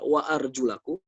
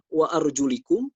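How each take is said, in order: First: The vowel before the final -kum is a. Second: The vowel before the final -kum is i. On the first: "seperti yang kita baca di dalam qiraah Hafs" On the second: "dibaca kasroh"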